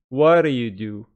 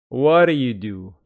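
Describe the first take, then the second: Both takes have the same delivery.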